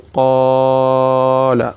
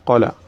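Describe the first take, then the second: First: The first vowel is stretched beyond two counts. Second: The first vowel is short with no lengthening. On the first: "where you elongate it beyond its count" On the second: "you did not even bring the madda at all"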